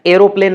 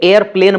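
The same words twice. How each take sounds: First: एरोप्लेन in three beats, ae-ro-plane; British form, aero-plane. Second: एयरप्लेन in two beats, air-plane; American form, air-plane. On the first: Teacher contrasting British usage, एरोप्लेन said as aero-plane. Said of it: "एरोप्लेन नहीं बोला जाता". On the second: Teacher contrasting American usage, एयरप्लेन said as air-plane. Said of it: "वो एयरप्लेन बोला जाता है". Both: Shown as a demonstration.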